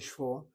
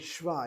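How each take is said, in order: First: The vowel is a rounded 'aw' sound. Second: The vowel is an open 'ah' sound. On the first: The speaker calls it wrong. "I don't say shvor" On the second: The speaker calls it right. "I say shva"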